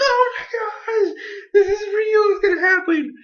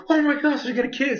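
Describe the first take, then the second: First: Tearful fan cry. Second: High, excited squeal of hope; excited gasp. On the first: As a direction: wail it like a heartbroken fan. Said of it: "I might have gotten a little bit too excited". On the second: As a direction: gush like a fan seeing the kiss coming. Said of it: "and I was like". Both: Retold or imitated.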